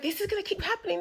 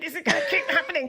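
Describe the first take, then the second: First: It is said quietly, without anger. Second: It is said with growing, intense anger.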